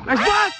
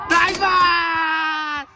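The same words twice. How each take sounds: First: Quick, loud, high cheer; short cheer. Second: Long shouted cheer, last word stretched; drawn-out cheer. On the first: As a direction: call out praise in one short burst. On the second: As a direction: holler praise and hold the final vowel. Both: Real, not acted. Cheering a play from courtside.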